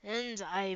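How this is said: It is said in a deep, hoarse voice.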